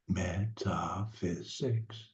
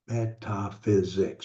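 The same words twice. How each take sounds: First: The word is broken into separate syllables. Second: The word is said smoothly as one unit.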